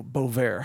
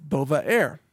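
First: "Bovaer" squeezed into two syllables; two-syllable pronunciation. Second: "Bovaer" said slowly in three syllables; three-syllable pronunciation. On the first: Host offering an alternative drug name, "Bovaer" as boh-vair. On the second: Host trying a drug name for listeners, "Bovaer" as boh-vuh-air. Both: Shown as a demonstration. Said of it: "however you pronounce it".

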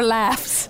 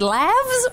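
First: Said in the usual way. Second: "laughs" said as "lavz"; "laughs" rhyming with "halves", voiced ending; voiced plural ending. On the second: Shown as a demonstration. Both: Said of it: "I don't know what the plural is".

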